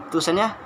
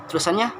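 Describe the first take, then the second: No difference in how they are said.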